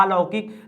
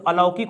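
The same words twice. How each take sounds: First: अलौकिक with a long opening "aa"; wrong long first vowel. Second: अलौकिक with a brief opening "a"; correct short first vowel. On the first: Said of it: "अलौकिक नहीं होता है". (अलौकिक में लंबा आ) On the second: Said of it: "तो अलौकिक होता है". (अलौकिक में छोटा अ) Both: Shown as a demonstration.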